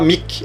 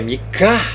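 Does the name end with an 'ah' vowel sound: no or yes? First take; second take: no; yes. First: The name ends on a consonant, no final vowel. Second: The name ends with an 'ah' vowel sound. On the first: The speaker calls it wrong. "Você não vai falar Mik" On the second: The speaker calls it right. "é Mica. Vai ter o som de ar no final"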